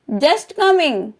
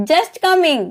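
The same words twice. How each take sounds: First: Slow, clear "just coming" for learners; slow model repeat. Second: Said in the usual way. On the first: Shown as a demonstration. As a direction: draw out "just coming" slowly. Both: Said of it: "teacher models phrase twice".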